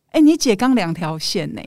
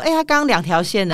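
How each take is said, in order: First: Breezy, offhand news; casual tone. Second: Breezy offhand retelling; casual tone. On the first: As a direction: say it like it's nothing. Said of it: "用很轻松的口气告诉我说". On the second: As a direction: toss it off lightly. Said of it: "一派轻松说". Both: Retold or imitated.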